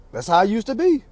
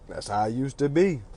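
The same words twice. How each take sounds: First: Higher, rising ending. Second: Said in the usual way. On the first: Real, not acted. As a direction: lift it as a question.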